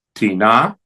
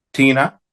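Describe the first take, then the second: First: "Tina" as ti-NA, rising; stress on last syllable. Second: "tina" as TI-na; stress on first syllable. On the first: Teacher reciting neuter indefinites, ti-NA stressed last. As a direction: lean into the NA of "Tina". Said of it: "en la última sílaba". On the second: Teacher reciting neuter interrogatives, TI-na stressed up front. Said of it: "la primera sílaba". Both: Shown as a demonstration.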